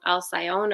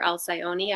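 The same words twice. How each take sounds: First: "Alcyone" said as al-sigh-OHN, ending on the n; "Alcyone" rhyming its end with "own"; alternative pronunciation. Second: "Alcyone" said as al-sigh-OH-nee, with a final ee; "Alcyone" with the last e voiced as "nee"; alternative pronunciation. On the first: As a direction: say "Alcyone" in three syllables, al-sigh-own, with silent final e. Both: Shown as a demonstration. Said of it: "I don't know how to pronounce it".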